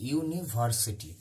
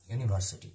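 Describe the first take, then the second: First: university slow, each syllable drawn out; slow sounding-out. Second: Said in the usual way. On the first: Shown as a demonstration. Teacher showing the same example, university slowly sounded out. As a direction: stretch university into clear separate syllables.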